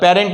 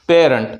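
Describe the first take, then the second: First: The first syllable sounds like 'pa'. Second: The first syllable sounds like 'pair'. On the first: The speaker calls it wrong. "आपण याला पॅरेंट म्हटलं" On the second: The speaker calls it right. "तो आहे पेअरंट"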